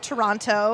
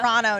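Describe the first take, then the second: First: The second T is clearly pronounced. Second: The second T is dropped. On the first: The speaker is not from the city. The speaker calls it wrong. "I was actually corrected on my pronunciation of the city" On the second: The speaker sounds like someone from the city. The speaker calls it right. "no second T"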